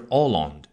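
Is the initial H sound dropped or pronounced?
dropped. The word starts without any H sound. "但是法国人是Holland"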